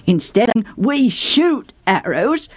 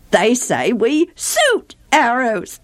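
First: "shoot" said with a clear sh, slowly; proper sh. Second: "suit" said with a plain s instead of sh, slowly; mock lisp. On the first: Shown as a demonstration. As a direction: stress the sh in "shoot" carefully. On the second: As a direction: mimic the Ephraimite s for sh. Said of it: "people from Ephraim can't say some sounds".

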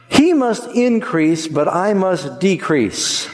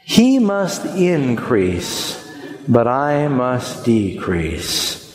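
First: Solemn key verse, slowly pressed; slow emphatic recitation. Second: Very slow, word by word with the people; slow congregational recital. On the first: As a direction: stress on He, slow and high. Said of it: "I'm gonna say it". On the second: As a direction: draw out He must increase for all to follow. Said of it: "Would you say that with me?". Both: Shown as a demonstration.

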